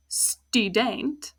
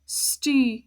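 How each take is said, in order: First: "student" langsam, "stu" lang mit U; "student" gedehnt, offene erste Silbe; Dutch student. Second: "student" mit langem offenem U; "student" klar mit "stü", nicht "uh"; Dutch student. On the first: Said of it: "stu, not uh". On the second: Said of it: "not uh". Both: Shown as a demonstration.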